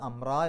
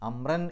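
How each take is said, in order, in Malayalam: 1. വാക്ക് നീണ്ട a സ്വരത്തിലാണ് അവസാനിക്കുന്നത്. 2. വാക്ക് n ശബ്ദത്തിലാണ് അവസാനിക്കുന്നത്. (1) "അമ്ര എന്ന് പറഞ്ഞിട്ടാണ് നിർത്തുക" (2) "അമ്രൻ എന്ന് പറഞ്ഞിട്ടല്ല നിർത്തുക"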